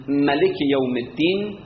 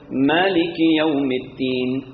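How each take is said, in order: First: ملک chanted with a short first a; short-vowel reading. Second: مالک chanted with a long first aa; long-vowel reading. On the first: Teacher contrasting variant readings, short-vowelled ملک. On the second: Teacher contrasting variant readings, long-vowelled مالک. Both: Shown as a demonstration. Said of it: "اختلاف قرائت ها".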